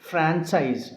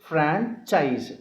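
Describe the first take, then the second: Both takes have the same delivery.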